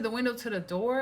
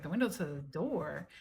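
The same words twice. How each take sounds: First: Asked with a rising pitch at the end; puzzled rising query; rising question. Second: Repeated low and falling, as if confused; softer puzzled echo; flat echo. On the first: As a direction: check it back with a lifted end. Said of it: "I said". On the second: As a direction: echo it back quietly with a falling end. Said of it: "And he was like". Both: Retold or imitated.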